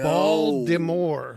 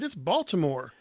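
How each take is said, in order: First: The middle T sounds like a D. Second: The middle T is a clear T. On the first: The speaker calls it wrong. "there's no D in this word" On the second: The speaker calls it right. "slow it down a little bit and pronounce it right"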